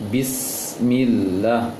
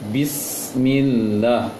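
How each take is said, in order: The two takes are said the same way.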